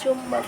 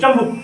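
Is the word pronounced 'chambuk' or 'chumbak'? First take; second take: chumbak; chambuk. First: The word is said in the standard form chumbak. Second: The word is said in the rustic form chambuk. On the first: This is the formal, educated way of saying it. The speaker calls it right. "पढ़ाई की भाषा में चुंबक बोला जाता है" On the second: This is the village way of saying it. The speaker calls it wrong. "थोड़ी देहाती भाषा में चंबुक बोलते हो"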